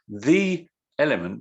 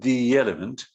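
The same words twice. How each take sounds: First: The two words are said separately. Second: The two words run together smoothly.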